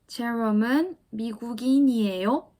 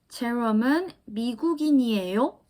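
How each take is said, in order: First: The voice rises slightly at the end. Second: The voice rises slightly at the end.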